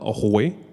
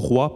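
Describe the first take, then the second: First: The word ends in a 'weh' sound. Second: The word ends in a 'wa' sound. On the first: This is a regional form heard as rustic today. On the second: This is the standard, neutral way of saying it today.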